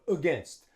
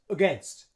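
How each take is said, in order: Both takes have the same delivery.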